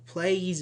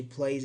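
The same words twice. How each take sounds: First: "plays" stretched into play-ies; "plays" with a mistaken extra ee sound; wrong form. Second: Said in the usual way. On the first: Shown as a demonstration. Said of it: "plays is wrong". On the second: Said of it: "in this way is correct".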